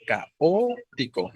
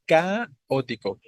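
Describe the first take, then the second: First: "caótico" como ca-Ó-tico, la O larga; acento en la O. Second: "Caótico" como CÁ-otico, CA alta y larga; acento cambiado a CA. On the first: ("caótico" lento, con la tónica en O) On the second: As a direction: alarga y sube la primera sílaba de "Caótico". ("Caótico" lento, con la tónica en CA) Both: Shown as a demonstration. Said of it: "vean la diferencia".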